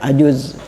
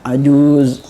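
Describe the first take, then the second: First: The vowel is cut short. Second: The vowel is held long. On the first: The speaker calls it wrong. "Jangan dibaca" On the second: The speaker calls it right. "Begitu cara apa? Melafadzkannya"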